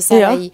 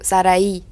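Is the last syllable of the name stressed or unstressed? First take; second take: unstressed; stressed. First: The final syllable carries no special stress. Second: The final syllable is clearly stressed. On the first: This is how people say it locally. "Aber niemand betont das hier in der- in der Schweiz" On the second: This is the original Spanish pronunciation. "Und dort tut man es noch betonen"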